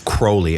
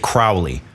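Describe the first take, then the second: First: The name rhymes with holy. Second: The name does not rhyme with holy. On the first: The speaker calls it right. "It's Crowley. It rhymes with holy" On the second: The speaker calls it wrong. "A lot of people say Crowley. That's incorrect"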